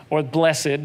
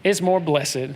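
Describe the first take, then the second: First: Blessed said as bless-ed, two syllables; Southern church pronunciation bless-ed. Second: Blessed stretched into two syllables, bless-ed; folksy Southern bless-ed. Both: Shown as a demonstration. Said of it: "depending on where you grew up in the South".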